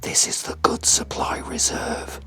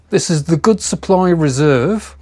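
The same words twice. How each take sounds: First: It is said in a whisper. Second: It is said in a normal voice.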